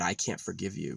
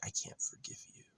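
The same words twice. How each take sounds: First: Said in the usual way. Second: High, airy mocking whisper; mock her in a thin whispered squeak; mocking whisper of mother. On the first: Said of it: "She's got nothing to say, but". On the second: Mocking how his mother dodges blame, high mock whisper. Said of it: "she switches it and she's like".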